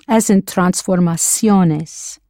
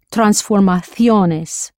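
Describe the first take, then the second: First: Transformaciones with the c said as s, slowly. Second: Transformaciones with the c lisped as th, slowly. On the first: Teacher shows the Latin American transformaciones with an s. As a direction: say transformaciones with an s sound. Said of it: "a C before an E or an I is pronounced like an S". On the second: Teacher shows the Spain transformaciones with a th. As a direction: say transformaciones with a th sound. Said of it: "It is pronounced T H in Spain". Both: Shown as a demonstration.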